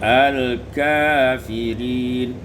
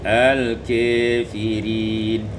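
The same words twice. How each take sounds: First: The vowel after k is an open a. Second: The vowel after k leans toward e.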